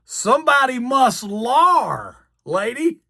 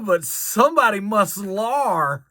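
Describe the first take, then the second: First: Higher and slow, dragging out lar; mock replay of the blunder. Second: Slow, trailing into lar; flustered original. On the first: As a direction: replay the botched word with self-mockery. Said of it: "I hope the lady forgot". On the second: Retold or imitated. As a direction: stumble and stall on lar. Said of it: "derailed a sentence".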